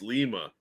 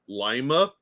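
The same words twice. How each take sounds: First: It uses the Peruvian pronunciation of the name. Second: It uses the Ohio pronunciation of the name. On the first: It names the city in Peru. "but in Peru, it's pronounced Lima" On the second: It names the town in Ohio. "here in Ohio, we have Lima"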